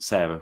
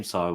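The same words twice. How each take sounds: First: "Sarah" as SAIR-uh, vowel as in "air". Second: "Sarah" as SAH-ruh, with an open ah; Sarah without H. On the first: Discussing co-host's name, "Sarah" as SAIR-uh. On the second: Discussing co-host's name, "Sarah" as SAH-ruh. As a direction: say "Sarah" with the vowel of "car". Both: Shown as a demonstration. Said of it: "we're just discussing your name".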